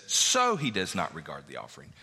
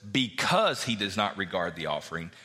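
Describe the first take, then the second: First: "So" given the weight, falling; stress on so. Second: "Because" given the weight, rising at the end; stress on because. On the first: Preacher contrasting Bible translations, "So" stressed. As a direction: hit "So" hard to mark the difference. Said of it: "The New King James says". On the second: Preacher contrasting Bible translations, "Because" stressed. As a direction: lean on "Because" to show the translation. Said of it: "In the E S V, it says". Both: Shown as a demonstration.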